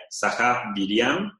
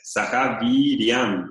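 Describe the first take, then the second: First: "Viriam" with a short, quick i. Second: "Viriam" with the i held long, twice the length. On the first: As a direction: clip the i short in "Saha Viriam". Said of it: "Si una I corta sería". ("Saha Viriam" con la i corta) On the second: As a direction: draw out the i in "Saha Viriam". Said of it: "esta es Saha Viriam". ("Saha Viriam" con la i larga, doble de la corta) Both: Shown as a demonstration.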